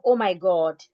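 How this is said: The vowel in God is a rounded o. "Instead of oh my God"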